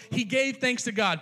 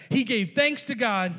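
First: Said in the usual way. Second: "thanks" drawn out and weighted, said slowly; slow stress on thanks. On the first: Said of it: "Put a pin in that". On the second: Shown as a demonstration. Preacher marking the phrase slowly for the congregation. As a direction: lean hard on "thanks" to God. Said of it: "we're coming right back to that".

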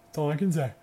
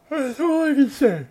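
First: Said in the usual way. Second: High, loud and drawn out; mock-exasperated high cry; higher, louder. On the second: Real, not acted. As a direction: belt the repeat up high. Repeats line, second louder.

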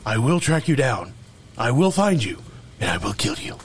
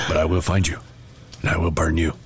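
First: Friend joins in with the Taken phone threat; Liam Neeson impression. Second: Low, grave movie-villain threat; terrible Liam Neeson threat to a card; Liam Neeson impression. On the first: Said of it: "terrible Liam Neeson impersonation". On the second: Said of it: "I do a terrible Liam Neeson impersonation".

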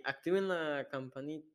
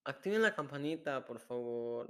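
First: Attempted catchphrase. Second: Softer, tentative go at a catchphrase; attempted catchphrase. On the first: Cohost trying to copy the bell catchphrase, raised botched attempt. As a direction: pitch the catchphrase up, then break off. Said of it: "no me sale". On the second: Cohost retrying the bell catchphrase, soft failed attempt. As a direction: try the catchphrase quietly, fading on the please. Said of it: "No, así no, no me sale". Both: Shown as a demonstration.

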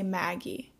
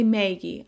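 First: "Maggie" with a short A, as in "cat"; short A pronunciation. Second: "Maggie" with a long A, like MAY-gee; long A pronunciation. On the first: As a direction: say the first vowel of "Maggie" like the one in "mad". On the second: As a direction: say the first vowel of "Maggie" as in "may". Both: Shown as a demonstration. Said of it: "the short A's instead of the long A's".

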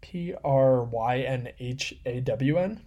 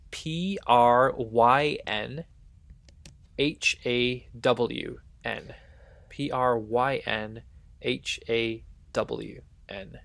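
First: Slow questioning spelling. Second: Letters spelled out one by one, slow; slow letter-by-letter spelling; spelling out slowly. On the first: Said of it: "repeats spelling". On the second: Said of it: "I have a Welsh word for you". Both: Shown as a demonstration.

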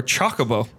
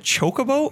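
First: Chocobo with first syllable like "chock"; short O in Chocobo. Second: Chocobo with first syllable like "choke"; long O in Chocobo. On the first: Host offers the alternative, Chocobo with a short O. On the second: Host asks which pronunciation, Chocobo with a long O. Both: Shown as a demonstration. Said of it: "Is it Chocobo or Chocobo?".

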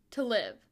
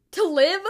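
First: Said in the usual way. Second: Loud, high disbelieving echo; shocked blurt. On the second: A narrator's reading. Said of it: "the boys blurt out in one voice".

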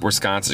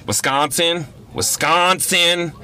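First: Said in the usual way. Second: WISCONSIN thrown back high, as an incredulous question, the second drawn way out; high-pitched, questioning WISCONSIN, poking fun at how it's said; mocking repetition. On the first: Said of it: "Just kept repeating it". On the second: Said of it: "making fun of my voice".

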